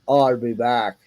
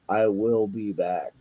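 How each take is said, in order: First: The first two words merge into one contraction. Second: Every word is said out in full. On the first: "just shut up and say the line the way it's" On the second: "he actually wanted to enunciate the whole thing"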